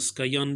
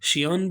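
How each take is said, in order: First: The word begins with an sk sound. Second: The word begins with an sh sound. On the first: "स्कायान भी पढ़ते हैं" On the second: "शियान भी इसे पढ़ते हैं"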